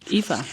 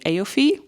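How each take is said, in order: First: The name is said like 'Eva', ignoring spelling. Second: The name is said like 'Aofi', following spelling. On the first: The speaker calls it right. "I think it's just called like Eva" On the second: The speaker calls it wrong. "my mind is always saying Aofi"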